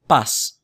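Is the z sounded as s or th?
s. The z is said like English s. This is how it is said outside Spain.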